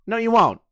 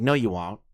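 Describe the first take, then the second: First: "won't" higher, with a falling finish; insistent retort. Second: Said in the usual way. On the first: Retold or imitated. Telling a friend he won't be recognized, insistent "won't". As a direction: repeat it higher, leaning on "won't".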